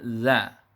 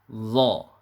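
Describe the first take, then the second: First: The consonant and vowel sound thin. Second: The consonant sounds thick and full. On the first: The speaker calls it wrong. "kurang tebal sehingga bunyinya menjadi za" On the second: The speaker calls it right. "bunyinya harus kita tebalkan"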